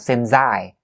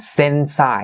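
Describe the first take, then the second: First: The word since ends with a Z sound. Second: The word since ends with an S sound. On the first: The speaker calls it wrong. "It's not the Z sound" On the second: The speaker calls it right. "the word since is actually ending with a, an S sound"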